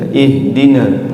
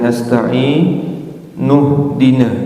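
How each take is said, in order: First: The word starts with a pronounced 'i' vowel. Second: The opening vowel drops and 'n' joins the word. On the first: "Hamzah wasol ketika dia waqaf akan hidup" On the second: "ketika di wasolkan maka hamzah wasolnya tidak hidup"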